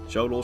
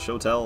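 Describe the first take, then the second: First: The word sounds like 'shoddle' with a soft d. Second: The word sounds like 'show and tell' with t. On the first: Other people say it this way. "I have heard other people say Shodol" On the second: The speaker usually says it this way. "I usually say Shotel, but I do feel like I'm saying show and tell"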